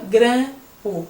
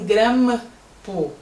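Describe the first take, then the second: First: The vowel is nasal without closing the lips. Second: The m is said with both lips closing. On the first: The speaker calls it right. "com a letra M e um M aberto que corresponde a um tio" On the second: The speaker calls it wrong. "o M você não faz assim"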